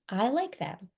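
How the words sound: The words flow together as one phrase. The speaker calls it right. "they would scoop it and say"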